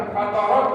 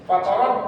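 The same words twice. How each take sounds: First: Fatarat with the t sounds loose and breathy; wrong fatarat. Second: Fatarat with a crisp, fully stopped t; correct fatarat. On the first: Teacher showing the reading to avoid, loose t. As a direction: let the t in fatarat leak air. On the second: Teacher modelling the right fatarat, crisp t. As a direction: close each t in Fatarat cleanly. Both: Shown as a demonstration. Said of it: "Jangan fatarat".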